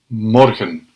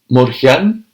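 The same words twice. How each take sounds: First: The second vowel is a weak, reduced e. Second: The second vowel is a full, stressed e. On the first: The speaker calls it right. "We do it unaccented" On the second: The speaker calls it wrong. "So we don't say"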